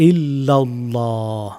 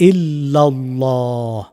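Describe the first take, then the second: The two takes are said the same way.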